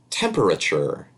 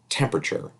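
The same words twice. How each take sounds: First: Every syllable of the word is fully pronounced. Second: A middle syllable is dropped from the word. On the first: The speaker calls it wrong. "We don't say that" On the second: The speaker calls it right. "we say"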